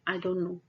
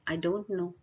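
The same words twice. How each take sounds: First: The sounds blur and run into each other. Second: Each sound is spoken clearly and separately. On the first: The speaker calls it wrong. "यहाँ पर सब कुछ एक दूसरे से mix हो रहा है" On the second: The speaker calls it right. "आपको इस तरह बोलना है"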